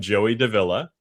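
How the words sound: The name is said with an English pronunciation. "if you anglicize my last name"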